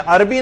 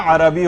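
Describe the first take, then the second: First: عربی said as arbi, two syllables run together; wrong pronunciation. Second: عربی said as arabi, three syllables, a clear short a after the r; correct pronunciation. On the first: Teacher showing the common mistake: عربی as arbi. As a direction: show the careless arbi with no vowel after the a. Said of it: "عربی نہیں ہوتا". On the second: Teacher giving students the right form: عربی as arabi. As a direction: sound out the correct arabi, pronouncing every syllable. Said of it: "عربی ہوتا ہے". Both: Shown as a demonstration.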